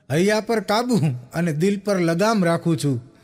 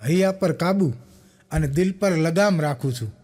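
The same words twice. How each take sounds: First: "હૈયા પર કાબુ અને દિલ પર લગામ રાખું છું" slowly, with weight on કાબુ; slow recited couplet. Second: Said in the usual way. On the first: Shown as a demonstration. Comedian repeats the couplet to the crowd, slower, stressing કાબુ. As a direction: lean on કાબુ and draw the line out.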